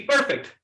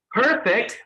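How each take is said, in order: First: "perfect" in a Pakistani accent, P without a puff of air. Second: "perfect" with an American hard, airy P; American accent. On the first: Trainer shows the class how to say "perfect", Pakistani accent. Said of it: "say perfect like a Pakistani". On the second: Trainer has the class feel air on fingers, American accent "perfect". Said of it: "say it like an American". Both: Shown as a demonstration.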